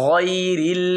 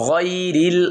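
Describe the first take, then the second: The two takes are said the same way.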